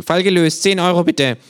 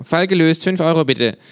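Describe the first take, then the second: First: Much higher, louder case-closed line; same smug detective formula; smug kangaroo. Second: Much higher, louder case-closed line; smug kangaroo. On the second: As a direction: rattle it off like a smug detective. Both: Acted. Känguru voiced by narrator.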